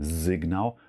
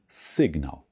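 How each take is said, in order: First: The word begins with a voiced S sound. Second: The word begins with a voiceless S sound. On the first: The speaker calls it wrong. "es wird nicht mit einem stimmhaften S gesprochen, also kein Signal" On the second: The speaker calls it right. "sondern Signal"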